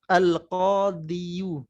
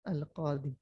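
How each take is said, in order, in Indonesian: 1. Kata ini berakhir dengan tambahan bunyi yu. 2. Kata ini berakhir dengan bunyi i panjang.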